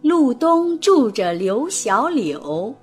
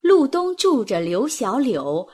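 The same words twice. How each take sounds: First: It is read slowly. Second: It is read fast.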